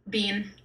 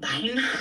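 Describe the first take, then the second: First: The name sounds like the word bean. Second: The name has a different, harsher vowel. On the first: This is how the name is said now. "like the vegetable" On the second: This is how the name was originally said. "supposed to be like something uglier"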